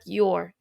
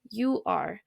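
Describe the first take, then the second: First: "your" as one clipped contraction; contracted your. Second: "you are" as two full words, softer; full form you are. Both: Shown as a demonstration.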